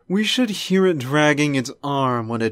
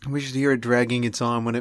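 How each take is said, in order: First: It is spoken with a posh, pretentious accent. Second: It is spoken with a Cockney-leaning accent. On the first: The speaker calls it right. "It was like really pretentious" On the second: The speaker calls it wrong. "I almost went like Cockney English there"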